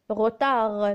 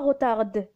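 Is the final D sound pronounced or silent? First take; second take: silent; pronounced. First: The final D sound is silent. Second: The final D sound is pronounced. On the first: The speaker calls it right. "la lettre D est muette" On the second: The speaker calls it wrong.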